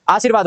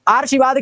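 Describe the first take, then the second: First: आशीर्वाद said as aa-sheer-vaad; corrected r position. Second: आशीर्वाद said as aar-shi-vaad; misplaced r. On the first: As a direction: put the r of आशीर्वाद before v. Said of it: "हो जाएगा". (आशीर्वाद, र व से पहले) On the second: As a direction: move the r of आशीर्वाद before sh. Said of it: "नहीं होता". (आशीर्वाद, र पहले: आर्शीवाद) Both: Shown as a demonstration.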